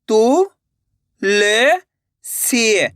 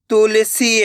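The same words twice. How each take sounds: First: तू, ले, सी separated by pauses; syllable by syllable. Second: Said in the usual way. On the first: Shown as a demonstration. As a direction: sound out तू, ले, सी one at a time. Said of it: "एक एक अक्षर का उच्चारण करके". (तू, ले, सी एक-एक अक्षर रुक-रुक कर) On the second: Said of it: "direct मात्रा का उच्चारण करके पढ़ेंगे".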